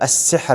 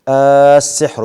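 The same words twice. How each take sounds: First: It starts with a short vowel and no lengthening. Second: It starts with a glottal stop and a long vowel. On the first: It is read as a statement. "بألف وصل من غير مد ولا همس" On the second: It is read as a question. "بمد بهمز"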